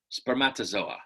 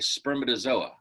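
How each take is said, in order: First: The stress falls on an unexpected syllable. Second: The stress falls on the expected syllable. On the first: The speaker calls it wrong. "not spermatozoa" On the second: The speaker calls it right. "you're supposed to say spermatozoa"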